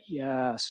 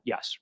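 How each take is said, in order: First: The word is drawn out and prolonged. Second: The word is short and plain. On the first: Something seemed odd or silly about him. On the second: Nothing seemed odd about him.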